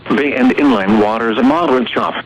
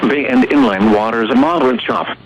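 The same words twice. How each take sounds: The two takes are said the same way.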